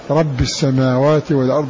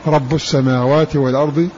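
First: The first word ends with an 'i' vowel. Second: The first word ends with a 'u' vowel. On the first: The word is a substitute for an earlier mention of the Lord. "قرأوا بخفض الرفع" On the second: The word begins a new statement about the Lord. "رب بضم الباء"

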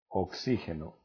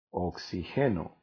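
First: The stress falls on the 'xi' syllable. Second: The stress does not fall on 'xi'. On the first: It is the noun for the gas. "Oxígeno lleva acento en la I" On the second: It is a form of the verb to oxygenate. "sin acento, sin tilde en la I"

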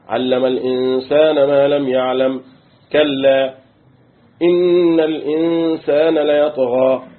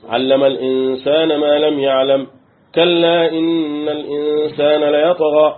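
First: There is a pause right after kalla. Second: Kalla runs straight into the following words. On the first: The word is a stern rebuke and deterrent. "يبقى أنا لو وقفت عليها كده" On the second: The word means truly, affirming what follows. "يعني حقا إن الإنسان إيه؟"

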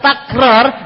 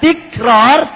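First: The first syllable has the vowel a. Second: The first syllable has the vowel i. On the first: The speaker calls it right. "Wa amma bi fathit ta" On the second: The speaker calls it wrong. "dibaca tikrar, itu berarti kurang pas"

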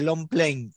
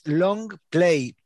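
First: It is run together as one single word. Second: It is said as two separate English words. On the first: "la gente le dice long play" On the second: "en realidad es long play"

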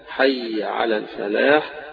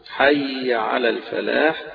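The two takes are said the same way.

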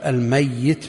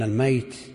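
First: The middle y sound is doubled and held. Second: The middle y sound is short and single. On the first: Someone who will die. "بالتشديد الذي سيموت" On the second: Someone who has already died. "بالتخفيف من مات بالفعل"

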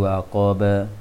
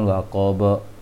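First: The vowel after b is open, like a. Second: The vowel after b is rounded, like o. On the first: The speaker calls it right. "tapi waqab ba. Jangan bo" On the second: The speaker calls it wrong. "bukan waqab"

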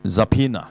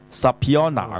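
First: No o vowel is pronounced after the p. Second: An o vowel is pronounced after the p. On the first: The speaker calls it right. "個O 字又唔知去" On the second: The speaker calls it wrong. "係錯嘅"

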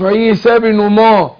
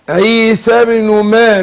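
First: The m sound is thick and heavy. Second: The m sound is thin and light. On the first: The speaker calls it wrong. "مش عيسى بن ما" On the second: The speaker calls it right. "الميم ارقق الميم وفخم الراء"

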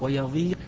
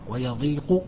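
First: The qaf carries no vowel at all. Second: The qaf carries a short u vowel. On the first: "بتسكين القاف" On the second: "بضم القاف"

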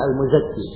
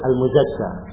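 First: The name ends with an i vowel. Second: The name ends with an a vowel. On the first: The speaker calls it right. "Bacanya Al-Muzakki" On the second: The speaker calls it wrong. "ada kesalahan gitu. Ditulis Al-Muzakka"

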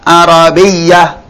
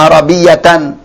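First: The word ends in a soft h sound. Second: The word ends with a full -tan ending. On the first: This is the reading at a pause in the Qur'an. "dibaca ha Arabiyah" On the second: This is the full case ending without pausing. "Walaupun dia tanwin fathah"

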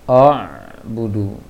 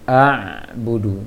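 First: The first vowel is pronounced heavy and rounded. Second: The first vowel is pronounced light and open. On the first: The speaker calls it wrong. "dari a-nya sudah tertebalkan" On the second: The speaker calls it right. "Seharusnya la a budu"

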